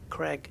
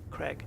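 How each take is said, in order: First: The vowel sounds like a short e. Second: The same.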